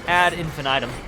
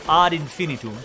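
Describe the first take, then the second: First: It is pronounced the ordinary Anglicized way. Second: It is pronounced with classical Latin sounds.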